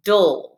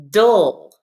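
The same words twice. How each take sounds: First: Dull said again firmly; repeat model dull. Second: Dull said louder, exaggerated; syllable dle modelled. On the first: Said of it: "Say that". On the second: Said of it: "pronounce that as". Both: Shown as a demonstration.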